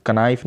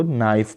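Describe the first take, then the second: First: कनाइफ with the K pronounced before N; wrongly sounded K. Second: नाइफ starting straight on the N; silent K. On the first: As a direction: sound the silent K, कनाइफ as "ka-nife". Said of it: "ये के silent है". (कनाइफ میں کاف کی آواز کے ساتھ) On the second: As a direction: say नाइफ as "nife", with no K sound. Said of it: "नाइफ पढ़ेंगे". (नाइफ میں کاف خاموش) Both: Shown as a demonstration.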